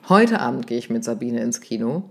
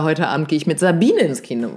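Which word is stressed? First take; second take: Heute; Sabine. First: The stress is on "Heute". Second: The stress is on "Sabine".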